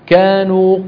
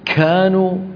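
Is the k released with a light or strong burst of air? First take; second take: light; strong. First: The k has only a slight burst of air. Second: The k has a strong, long burst of air. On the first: The speaker calls it right. "قليلا" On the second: The speaker calls it wrong. "يبالغون في همس الكاف"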